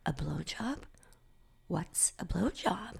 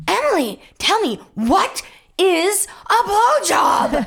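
First: Slow, hushed question; puzzled whisper. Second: High, slow, word-by-word shout; shouted demand. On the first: Girl asks friend about the gossip, puzzled whisper. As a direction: whisper it, clueless and curious. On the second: Girl corners Emily in front of class, shouting. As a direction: yell it insistently, stretching each word. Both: Retold or imitated.

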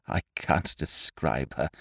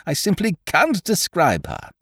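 First: Low, slow, very soft; subdued lovelorn awe; hushed rapture. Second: "can't" pitched high and stressed; higher, insistent stress on "can't"; emphatic rapture. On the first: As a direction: murmur it, lost for words. Lovelorn, first take before emphatic repeat. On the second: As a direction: lift "can't" in helpless adoration. Emphatic repeat of same words. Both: A narrator's reading.

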